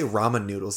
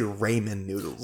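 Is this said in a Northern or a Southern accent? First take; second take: Northern; Southern. First: It is said in a Northern Midwest accent. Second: It is said in a Southern accent. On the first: "they don't say ramen noodles" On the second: "They say Ramen noodles"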